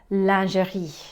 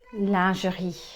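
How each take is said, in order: Both takes have the same delivery.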